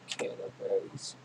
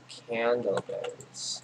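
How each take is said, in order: First: Softer, slow whispered "Candleberries"; whispered to self. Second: Slow, savoured "Candleberries" with a falling end; drawn out. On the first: Gamer musing over the item alone, whispering. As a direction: breathe "Candleberries" to yourself. Repeats item name to himself. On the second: Gamer reading a new item name, slow and drawn out. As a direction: stretch "Candleberries" out as you read it. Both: Real, not acted.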